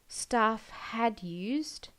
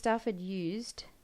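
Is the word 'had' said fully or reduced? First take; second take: fully; reduced. First: The word had is said in full. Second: The word had is shortened to an id sound. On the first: "the full had" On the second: "they're just going id"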